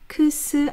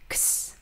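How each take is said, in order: First: The sound is said slowly in two separate parts. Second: The sound is said quickly as one unit. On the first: The speaker calls it wrong. "크스 아니고요" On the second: The speaker calls it right. "한 번에 빠르게 발음하셔야 돼요"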